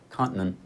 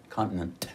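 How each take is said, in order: First: "continent" with the T unreleased, swallowed; no release. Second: "continent" with a crisp, released T. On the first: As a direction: say "continent" with a held, silent T. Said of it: "with no release". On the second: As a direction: say "continent" popping the T clearly. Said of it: "and you said con". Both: Shown as a demonstration.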